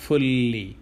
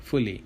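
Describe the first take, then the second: First: "fully" with a lengthened double l; wrong pronunciation. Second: "fully" said short, with a single light l; correct pronunciation. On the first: Teacher showing learners what not to say, "fully" with a long held l. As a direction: hold the l in "fully", as ful-lee. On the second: Teacher correcting the ending for learners, "fully" short with a single l. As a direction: keep "fully" quick, as fu-lee. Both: Shown as a demonstration. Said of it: "not fully".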